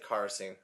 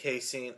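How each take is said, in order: First: The first syllable has an R sound. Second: The first syllable has no R sound. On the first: The speaker calls it wrong. "I want to put an R in there" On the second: The speaker calls it right.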